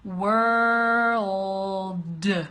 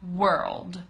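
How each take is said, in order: First: The word is said slowly. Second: The word is said fast. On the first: "I'm going to pronounce it slowly for you" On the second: "And then fast"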